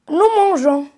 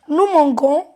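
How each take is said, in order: First: The g is soft, like the s in measure. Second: The g is hard, like in go. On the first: The speaker calls it right. "on va lire nous mangeons. On a ajouté le E" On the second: The speaker calls it wrong. "Alors ça n'a pas de sens"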